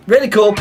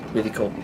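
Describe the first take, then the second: First: High, loud excited exclamation. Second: Soft, low murmur; quiet. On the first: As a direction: burst it out loud. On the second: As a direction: say it softly under breath. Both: Shown as a demonstration. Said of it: "three takes of same words".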